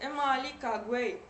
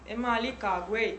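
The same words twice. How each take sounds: First: The tone in the phrase is mid. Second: The tone in the phrase is low. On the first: This is the central dialect form. "вот появляется средний тон" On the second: This is the northern dialect form. "там низкий совсем"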